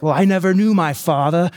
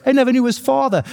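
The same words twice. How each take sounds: First: Said in the usual way. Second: Much higher, sad-cartoon-shark voice; Bruce the shark impression. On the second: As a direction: squeak it out like the shark from Finding Nemo. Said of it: "Like Bruce from Finding Nemo, the shark".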